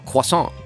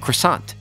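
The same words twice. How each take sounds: First: It is said with a French pronunciation. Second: It is said with an English pronunciation.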